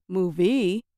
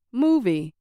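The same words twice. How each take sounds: First: Movie wrongly stressed on its second syllable, mo-VIE. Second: MOVIE with the first syllable louder and longer; first-syllable stress. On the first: Teacher showing a mistake nobody would understand, stress on second syllable. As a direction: put the weight on the end of "movie". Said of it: "If I had said movie, people probably would have had no idea".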